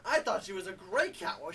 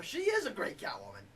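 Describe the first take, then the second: First: Said in the usual way. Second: Higher-pitched emphasis on "is"; stress on "is". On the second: Real, not acted. Reviewer correcting was to is, "is" stressed high. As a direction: lean hard on "is" to correct yourself.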